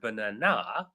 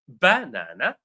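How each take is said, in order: First: The stress is on the third syllable. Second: The stress is on the first syllable. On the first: "syllable three" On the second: "syllable one"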